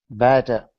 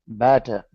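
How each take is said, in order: Both takes have the same delivery.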